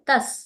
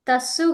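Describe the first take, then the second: First: The word ends sharply on the s consonant. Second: The word ends with an added u vowel. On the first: The speaker calls it right. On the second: The speaker calls it wrong. "తస్సు కాదు"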